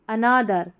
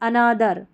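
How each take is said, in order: No difference in how they are said.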